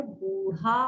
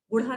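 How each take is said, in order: First: "बूढ़ा" with long "boo"; measured "boo-rhaa" for "बूढ़ा"; correct pronunciation. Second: "बूढ़ा" with short "bu"; quick "bu-rha" for "बूढ़ा"; wrong pronunciation. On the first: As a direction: draw out the first vowel of "बूढ़ा". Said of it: "इसका उच्चारण होगा बूढ़ा". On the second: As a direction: clip the first vowel of "बूढ़ा". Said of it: "बूढ़ा नहीं होता है". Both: Shown as a demonstration.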